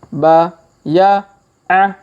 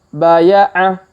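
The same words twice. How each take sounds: First: It is read slowly, sound by sound. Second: It is read quickly, sounds run together. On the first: "Kita baca pelan-pelan" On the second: "Kalau dipercepat"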